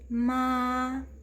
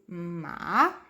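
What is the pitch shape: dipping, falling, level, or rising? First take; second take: level; dipping. First: The pitch stays flat and even throughout. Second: The pitch dips down, then rises, sounding husky. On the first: "nossa voz bem baixinha e retilínea, realmente sem alterações" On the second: "vai começar médio, vai descer e vai subir de novo"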